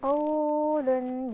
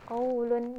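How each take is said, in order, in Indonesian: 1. Diucapkan dengan tekanan dan tegang. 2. Diucapkan dengan lembut dan santai, tanpa tegang. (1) "kalau dipaksakan bunyinya kayak gini" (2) "santai aja, lunak dan lembut bacanya"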